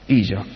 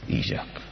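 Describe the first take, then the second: First: Said in the usual way. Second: Isaac breathed out in a whisper; whispered name. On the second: Shown as a demonstration. Preacher musing on the child's name, whispered. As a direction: whisper "Isaac" almost to yourself. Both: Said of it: "In het Hebreeuws".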